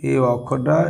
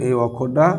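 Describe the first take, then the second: Both takes have the same delivery.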